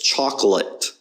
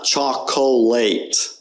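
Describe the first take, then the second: First: The middle vowel is a weak uh sound. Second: The middle vowel is a full, clear O. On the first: The speaker calls it right. "The O there is just kind of unstressed. It's an uh" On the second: The speaker calls it wrong. "it's not chocolate. That's not how you pronounce the word"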